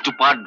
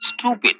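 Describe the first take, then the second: First: The word ends with a 'part' sound. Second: The word ends with a 'pid' sound. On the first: The speaker calls it wrong. "ওটা স্টুপার্ট নয়" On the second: The speaker calls it right.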